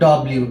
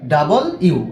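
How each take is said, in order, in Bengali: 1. এটা 'dobliu' হিসেবে বলা হয়। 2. এটা 'double you' হিসেবে বলা হয়। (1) "এটাকে বলি ডব্লিউ, কিন্তু এটা ডব্লিউ না" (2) "মানে দুইটা ইউ যেভাবে বলা হয় ডাবল ইউ"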